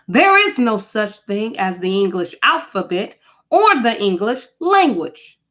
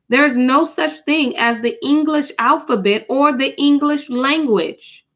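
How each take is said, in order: First: It is read forcefully, with strong emphasis. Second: It is read in a plain, even voice.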